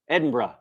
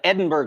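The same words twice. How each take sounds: First: It is said the Scottish way, ending like bruh. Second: It is said the American way.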